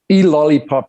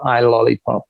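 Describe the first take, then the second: First: The title begins with an 'ee' sound. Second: The title begins with an 'eye' sound. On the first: This is the title's actual pronunciation. "is how it's pronounced" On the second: This is how a reader would guess it from spelling. "if you were to read it, you would pronounce it"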